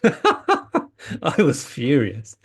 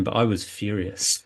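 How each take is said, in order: First: Laughing through the words, slow; amused, slowed, laughing admission. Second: Said in the usual way. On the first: Real, not acted. Repeats it laughing at himself.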